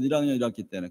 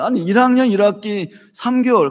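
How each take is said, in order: First: 일 학년 일 학기 때는 dropped low and soft; muttered afterthought, lower and softer; quieter aside. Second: 학년 pushed up, said higher and louder; mock disbelief, 학년 stressed high. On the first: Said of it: "배우잖아요, 여러분". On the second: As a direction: lean hard on 학년 in amused disbelief. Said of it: "웃기죠, 여러분들?". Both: Shown as a demonstration.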